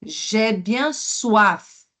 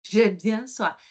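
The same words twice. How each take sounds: First: J'ai bien soif said slowly, each word clear; slow teaching model of j'ai bien soif; slow model line. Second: Said in the usual way. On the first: Shown as a demonstration. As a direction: stretch out bien soif with the French R. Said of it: "Então, j'ai, ó". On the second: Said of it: "il est bien le R fort".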